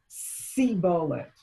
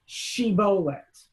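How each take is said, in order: First: The word begins with an s sound. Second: The word begins with an sh sound. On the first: The speaker is from Ephraim. "in the accent of Ephraim" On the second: The speaker is not from Ephraim. "Say the word shibolet"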